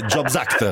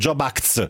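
First: The s sound ends the first word. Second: The s sound comes at the very end. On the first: The speaker calls it right. "invece è jobs act" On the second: The speaker calls it wrong. "mettevano la S in fondo"

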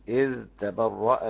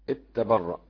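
First: The dh sound is pronounced clearly before t. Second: The dh sound merges into the following t. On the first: "والباقي" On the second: "في إضغام إذ تبرأ"

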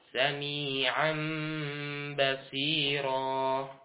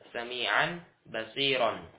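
First: The last word ends with a long vowel. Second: The last word ends with an n sound. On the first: This is the form used when stopping. "ketika berhenti di basiran, ya, maka dipanjangkan dua harokat" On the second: This is the full form with tanwin. "Pada asalnya kan"

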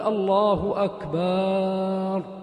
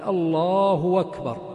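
First: The vowel after the b in akbar is long. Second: The hamza of akbar becomes a w sound. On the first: The word becomes one that means a drum. The speaker calls it wrong. "جاء أثبت ألف في الله أكبر، وقال الله أكبر، وضع ألفا أكبر" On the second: The meaning stays the same. The speaker calls it right. "أحال الهمزة فقال الهمزة إلى واو"

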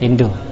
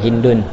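First: The name ends in a vowel without n. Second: The name ends with an added n sound. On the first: "Ini boleh dibaca enggak ditanwin juga" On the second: "akhirnya ditanwin"

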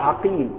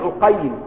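First: The name is said in its plain pattern. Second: The name is said in its diminutive pattern.

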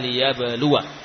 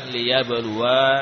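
First: The final vowel is short. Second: The final vowel is long. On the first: The speaker calls it right. "Jadi dibaca liyabluwa" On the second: The speaker calls it wrong. "bukan liyabluwa"

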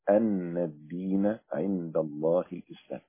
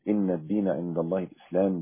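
First: The first word begins with an 'a' vowel. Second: The first word begins with an 'i' vowel. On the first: The clause continues the preceding sentence. "فيها قراءة" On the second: A new emphatic sentence begins here. "بكسر الهمزة على الاستئناف"

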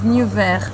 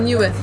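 First: The name is said with a French pronunciation. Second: The name is said with the R swallowed. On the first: "les Français disent Niver" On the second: "les Cubains, ils mangent la R"

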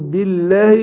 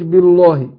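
First: The L sound is light and thin. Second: The L sound is heavy and thick. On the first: The speaker calls it right. "انا برقق برضو اللام، اقول بالله" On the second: The speaker calls it wrong. "ما اقولش بالله"

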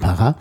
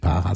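First: The stress is on the last syllable. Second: The stress is on the first syllable. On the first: The speaker calls it right. "das hinten betont" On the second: The speaker calls it wrong. "eigentlich nicht Para"

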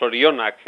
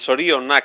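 First: The stress is on the penultimate syllable. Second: The stress is on the second syllable. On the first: The speaker calls it wrong. "es que ya es el desastre de los desastres" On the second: The speaker calls it right. "la segunda sílaba tenga la fuerza tónica más importante"

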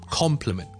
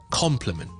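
First: The first syllable sounds like 'com'. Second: The first syllable sounds like 'com'.

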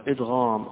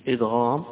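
No difference in how they are said.

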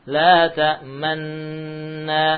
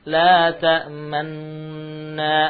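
Both takes have the same delivery.

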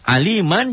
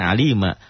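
First: The word ends with a nasal 'an' sound. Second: The word ends with a long open 'a' sound. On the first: The reading continues without stopping. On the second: The reading stops on this word.

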